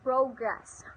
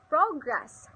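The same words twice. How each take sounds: First: The stress is on the second syllable. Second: The stress is on the first syllable. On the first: It is used as a verb. "verb, second syllable" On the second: It is used as a noun. "noun, first syllable"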